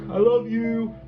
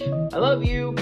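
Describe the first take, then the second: First: It sounds teasing and scornful. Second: It sounds like a plain recognition. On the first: The listener is being made fun of. "to mock" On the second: The listener is being recognized.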